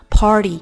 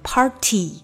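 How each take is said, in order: First: The t is softened and sounds like d. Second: The t is pronounced crisply and fully. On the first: The speaker calls it right. "这个t 有点变得d 的感觉。" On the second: The speaker calls it wrong. "你不能把它说得非常干净，变成party，那就不太好听。"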